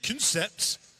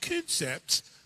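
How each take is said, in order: First: It is said with a French accent. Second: It is said with an English accent.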